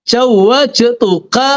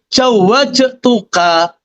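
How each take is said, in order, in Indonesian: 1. Dimulai dengan j dan ada j di tengah. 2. Dimulai dengan j dan ada j di tengah.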